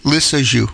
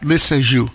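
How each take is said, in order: No difference in how they are said.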